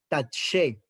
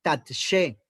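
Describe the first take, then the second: First: Said in the usual way. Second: "Tatshe" with a short break after tat; Hebrew word demo. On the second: Shown as a demonstration. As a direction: model "Tatshe" clearly for students. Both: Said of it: "tercera palabra del versículo once".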